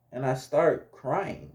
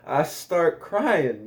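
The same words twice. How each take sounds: First: Said in the usual way. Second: "I start crying" drawn out slowly, each word leaned on; slow emphatic retelling. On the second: Shown as a demonstration. Telling friends the punchline, slow and emphatic. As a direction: stretch out "crying" for comic weight. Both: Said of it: "I start crying, y'all".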